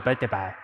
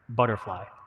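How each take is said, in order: First: The word is pronounced in a childlike, garbled way. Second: The word is pronounced clearly, like an adult.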